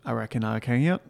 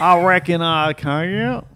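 First: Southern accent. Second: Loud, slow, hammed-up Southern drawl; exaggerated Southern accent. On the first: Man asked to do an accent, mild Southern. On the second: Man showing off for his co-host, broad Southern accent. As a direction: stretch it out in a big, higher Southern twang. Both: Shown as a demonstration. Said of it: "can you do a Southern accent?".

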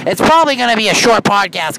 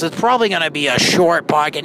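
First: Raised voice over cabin noise; louder over the noise. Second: Said in the usual way. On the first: Shown as a demonstration. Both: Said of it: "Now they're turning the air up".

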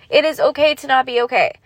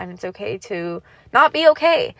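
First: "It is okay" stressed, with a full "is" instead of "it's"; firm emphatic repeat. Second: Said in the usual way. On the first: Real, not acted. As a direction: hit "It is" and say it louder and a bit higher, like an insistence.

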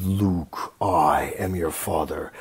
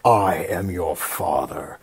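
First: Low, slow Vader intonation, slightly hammed; Vader misquote. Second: Low, slow Vader delivery without Luke; Vader correct line. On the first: Misremembered Vader line to Luke, low and slow. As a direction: drop low and drag out father like Vader. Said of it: "I always said it was". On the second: Retold or imitated. Correct Vader line to Luke, low and slow. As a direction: lower and slower, solemn as Vader. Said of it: "But apparently it's not".

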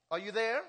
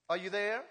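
Both takes have the same delivery.

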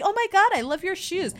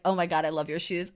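First: High-pitched mock gush; girly gushing. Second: Said in the usual way. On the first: Viola as Sebastian meeting Olivia, high girly gushing. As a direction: squeal a compliment like a girly girl. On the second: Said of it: "if a boy is like".

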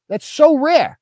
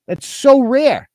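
First: Higher, sarcastic squeak of awe; "so" lifted high in mock astonishment; mock amazed. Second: Slow sarcastic awe; mock wonder, drawn out slowly. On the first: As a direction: push it up into a fake gasp of wonder. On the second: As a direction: stretch "so" in fake amazement.

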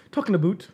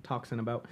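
First: "about" with an oo vowel, "aboot". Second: Said in the usual way. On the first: Shown as a demonstration. Joking with coworkers about closures, "about" said as "aboot". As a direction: say "about" to rhyme with boot.

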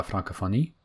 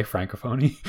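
First: "Francophonie" pronounced as in French; French pronunciation. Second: "Francophonie" with English sounds; Anglophone pronunciation. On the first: Naming the organization in French, French pronunciation of "Francophonie". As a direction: say "Francophonie" with French vowels and French stress. French name, Anglicized version follows. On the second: Joking to co-host about Anglophones, English pronunciation of "Francophonie". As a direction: say "Francophonie" anglicized, as an English speaker would. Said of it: "as an Anglophone would say". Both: Shown as a demonstration.

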